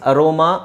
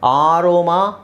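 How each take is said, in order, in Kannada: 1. ಇದು ಚಿಕ್ಕದಾದ, ಮೆತ್ತಗಿನ 'uh' ಸ್ವರದಿಂದ ಶುರುವಾಗುತ್ತೆ. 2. ಇದು ಉದ್ದವಾದ, ಗಟ್ಟಿಯಾದ 'ar' ಸ್ವರದಿಂದ ಶುರುವಾಗುತ್ತೆ. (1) "ಇಲ್ಲೇ ಕ್ಲಿಯರ್ ಆಗಿ ನಾನು ಹೇಳ್ತಾ ಇದ್ದೀನಿ" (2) "ಆರ್ ಅಂತ ಹೇಳಂಗಿಲ್ಲ"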